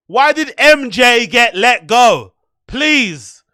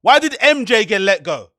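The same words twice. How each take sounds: First: Why did M J get let go, louder and slowed; louder, slower demand. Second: Said in the usual way. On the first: Real, not acted. Streamer demanding an answer from the podcaster, louder and slower. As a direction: press harder the second time.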